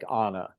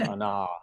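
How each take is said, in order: First: The stress is on the first syllable. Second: The stress is on the second syllable. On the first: The speaker calls it right. "have the first syllable be the one that has the accent" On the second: The speaker calls it wrong. "instead of"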